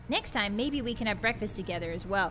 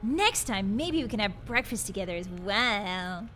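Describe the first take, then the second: First: It is read in a plain voice. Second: It is read in a flirty voice.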